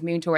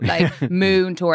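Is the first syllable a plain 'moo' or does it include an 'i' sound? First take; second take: with i; moo. First: The first syllable includes an audible 'i' sound. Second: The first syllable sounds like plain 'moo'. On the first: This is how the speaker said it as a child. "I maybe pronounced the I in the in moon tour" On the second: This is how the other children said it. "everyone else is like moon tour. ... Like moo cow"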